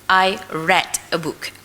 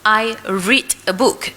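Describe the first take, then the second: First: Read is pronounced as its past-tense form. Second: Read is pronounced as its present-tense form. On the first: The action happened in the past. "but when it is in past tense" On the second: The action happens now or habitually. "present tense"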